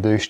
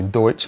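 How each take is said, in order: First: The word is said like 'doosh'. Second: The word is said like 'doitch'. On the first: This is how the name looks when read. "it looks like douche to me" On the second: This is the actual name of the plug. "I think it's actually Deutsch"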